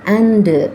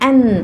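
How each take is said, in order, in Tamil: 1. இந்த வார்த்தை வெளியிடப்பட்ட d ஒலியும் உயிரெழுத்தும் கொண்டு முடிகிறது. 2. இந்த வார்த்தை இறுதி d இல்லாமல் n ஒலியில் முடிகிறது. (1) "அண்டு இவ்வாறாக முடிக்கிறாங்க" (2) "an என்று முடிங்க"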